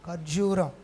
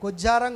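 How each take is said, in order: First: The word is said as kharjuram. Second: The word is said as kujjaram. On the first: The speaker calls it right. "అందరూ చెప్పండి ఖర్జూరం" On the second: The speaker calls it wrong. "తప్పు, అలా అనకూడదు"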